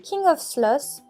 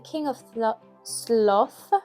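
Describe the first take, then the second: First: The title is pronounced carelessly and badly. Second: The title is pronounced carefully and clearly. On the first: The speaker calls it wrong. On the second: The speaker calls it right.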